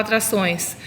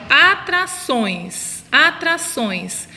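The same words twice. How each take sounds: First: Said in the usual way. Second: Atrações very slowly, final ções drawn out; syllable-by-syllable stress. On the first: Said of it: "qual que é a sílaba mais forte". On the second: Shown as a demonstration. Teacher has children find the strong syllable, atrações drawn out. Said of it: "quando você fala assim".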